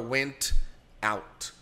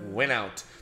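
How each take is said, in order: First: The two words are said separately. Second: The t runs straight into out. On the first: "a gente não precisa quebrar" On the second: "Vira went out"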